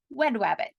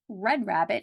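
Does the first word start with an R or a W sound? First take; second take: W; R. First: The first word begins with a W sound. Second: The first word begins with a clear R sound. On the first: The speaker calls it wrong. "it might be wed rabbit" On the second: The speaker calls it right. "it might not be red rabbit"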